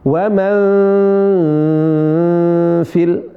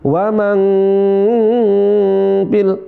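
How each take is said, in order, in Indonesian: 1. Bunyi n tersembunyi dan sengau. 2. Bunyi n diucapkan dengan jelas. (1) "disamarkan, dibuat samar, dibuat tidak jelas" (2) "bukan waman fil"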